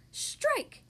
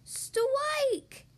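First: High, quick exclamation; high strike call. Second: Put-on high, drawn-out childlike cry; little Polly's yell. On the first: Grandma bowls the ball, high call of strike. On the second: Small frog's ball reaches the pin, high drawn-out yell. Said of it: "yelled Polly". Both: A narrator's reading.

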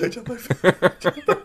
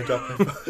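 First: Slow laughing repeat. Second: Said in the usual way. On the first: Real, not acted.

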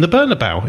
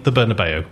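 First: Said in the usual way. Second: Bernabeu said as "ber-na-BAY-oo"; the broadcasters' new Bernabeu, "ber-na-BAY-oo"; newfangled pronunciation. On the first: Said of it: "it's always been the Bernabeu". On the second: Retold or imitated. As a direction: finish Bernabeu with "BAY-oo" instead of "bow". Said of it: "it's suddenly be the".

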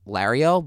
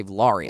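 First: "Lario" with the first vowel as in "cat"; hometown pronunciation. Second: "Lario" with the first vowel as in "father"; outsiders' pronunciation. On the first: Host showing the hometown way, "Lario" with a front A. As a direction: say "Lario" with a short front A, close to "lair-ee-oh". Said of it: "everybody from our area where we grew up". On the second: Host showing how others say it, "Lario" with a broad "ah". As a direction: say "Lario" as "lah-ree-oh". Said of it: "people who I know from, like, all walks". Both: Shown as a demonstration.

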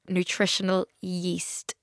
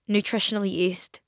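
First: "Nutritional yeast" drawn out slowly and softly; slow careful repeat. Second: Said in the usual way. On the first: Shown as a demonstration. Podcaster repeating for puzzled listeners, "Nutritional yeast" said slowly and softly. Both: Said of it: "What did you just fucking say".

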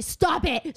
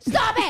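First: Higher, sharp command; firm mock yell; retold angry stop. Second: Much higher, louder shriek of stop; frightened scream, hammed up in the retelling; retold scream. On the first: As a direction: push her off with your voice. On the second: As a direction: lose it and shriek at her. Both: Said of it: "I start, like, screaming at this girl".

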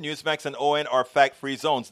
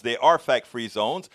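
First: Said in the usual way. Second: "fact-free zones" said slowly, each word weighted; slow it down and lean on "are"; slow emphatic agreement. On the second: Real, not acted.

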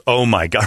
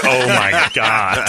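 First: Said in the usual way. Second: Drawn-out mock horror, very slow; a slow, drawn-out gasp of mock shock; slow, stretched-out shock. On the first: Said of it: "And she goes". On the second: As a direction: stretch every word in wide-eyed horror. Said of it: "Her eyes were like".

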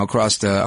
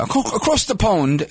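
First: Said in the usual way. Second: Slow, drawn-out British accent on "across the pond"; playful British accent, said a touch higher. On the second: Shown as a demonstration. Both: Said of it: "I'm using my British accent".

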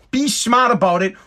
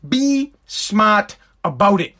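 First: Said in the usual way. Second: Slow, every word weighed in "Be smart about it"; slow emphatic repeat. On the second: Real, not acted. Telling viewers to hold back on the loophole, slow and emphatic. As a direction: drag out "Be smart about it" so it sinks in.

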